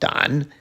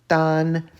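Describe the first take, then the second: First: The syllable is said with a dipping pitch. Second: The syllable is said with a high level pitch. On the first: "third tone" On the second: "first tone"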